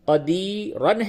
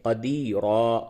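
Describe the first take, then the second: First: The word ends with a final an sound. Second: The word ends with a long a vowel. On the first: The word is read without pausing on it. "कदीरन है" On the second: The reader pauses on the word. "वक्फ की हालत में कदीरा"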